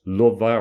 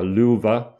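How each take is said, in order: First: "Luva" as LUV-ah, short first vowel; "Luva" opening on a short uh; alternative pronunciation. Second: "Luva" as LOO-vah, long oo; "Luva" opening on a long oo vowel; alternative pronunciation. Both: Shown as a demonstration. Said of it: "Luva or Luva".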